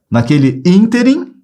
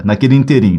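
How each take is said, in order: First: Ínterim with a high, long ÍN; first-syllable stress. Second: Interim with the stress on RIM; wrong final stress. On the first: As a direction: model it, stressing the start of ínterim. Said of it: "a pronúncia é ínterim". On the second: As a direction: show the error, leaning on the end of interim. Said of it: "tá errado". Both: Shown as a demonstration.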